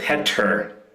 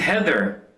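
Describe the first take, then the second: First: The middle sound is a plain 't'. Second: The middle sound is a clear 'th'. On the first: "I couldn't pronounce words that had a T H in the middle of the word" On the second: "My first girlfriend was named Heather"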